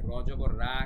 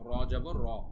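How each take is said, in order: First: The vowel is an open, bright 'aa' sound. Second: The vowel is a rounded, darker 'o' sound. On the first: The speaker calls it wrong. "কিন্তু হয়নি, আ করতে হয়নি" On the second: The speaker calls it right. "আরেকটা ব্যতিক্রম পেলাম"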